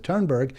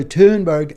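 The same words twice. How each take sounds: First: "Thunberg" as TURN-berg, American r; Americanized pronunciation. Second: "Thunberg" with an oo, TOON-berg; careful name pronunciation. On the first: Shown as a demonstration. Host showing how they understand the name, "Thunberg" Americanized as TURN-berg. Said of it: "in kind of my Americanized accent". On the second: Real, not acted. Host carefully naming the Swedish activist, "Thunberg" as TOON-berg. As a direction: say "Thunberg" as TOON-berg, first syllable louder. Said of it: "the way I've heard it pronounced".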